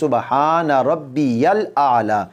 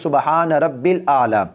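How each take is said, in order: First: A clear y sound separates Rabbi and al. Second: Rabbi and al merge with no y sound. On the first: The speaker calls it right. "असल में ये सुबहान रब्बिल आला नहीं है, बल्कि" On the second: The speaker calls it wrong. "जल्दी के चक्कर में।"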